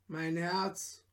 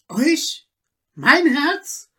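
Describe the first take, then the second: First: Softer, barely spoken "Mein Herz"; hushed reply. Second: Higher, louder "Mein Herz?" in shock; horrified cry. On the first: Peter answers softly, afraid. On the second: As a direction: gasp out "Mein Herz?" in terror. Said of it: "schrie Peter mit Entsetzen". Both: Acted.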